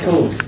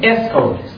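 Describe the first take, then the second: First: The word starts directly with the s sound. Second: A short vowel is added before the s. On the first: This is how English speakers say it. "اینجوری میگن سکول" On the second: This is how speakers with an accent say it. "اونایی که لحظه و اینان دارن در اینجا اینجوری میگن اسکول"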